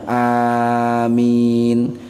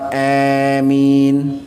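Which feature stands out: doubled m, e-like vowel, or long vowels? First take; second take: long vowels; e-like vowel. First: Both vowels are drawn out long. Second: The first vowel leans toward an e sound. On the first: "bacaan A-nya panjang, mi-nya juga panjang"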